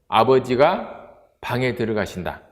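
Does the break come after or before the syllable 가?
after. The break falls between 가 and 방. Father is going into the room.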